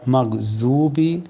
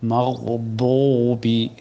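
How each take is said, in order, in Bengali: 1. মাঝের ব্যঞ্জনটি z-এর মতো শোনায়। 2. মাঝের ব্যঞ্জনটি একটি ভারী d-এর মতো শোনায়। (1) "সেটা জু, সেটা জিহ্বার মাথার থেকে" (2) "আমি জিহ্বার বাম কিনারা থেকে উচ্চারণ করলাম"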